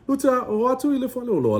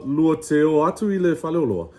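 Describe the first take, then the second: First: "Lua te o atu i le fale o loa" pitched up high and quicker, like a question; higher questioning read. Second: Said in the usual way. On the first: Shown as a demonstration. Teacher contrasting the sentence as a high fast question. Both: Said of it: "same sentence said two ways".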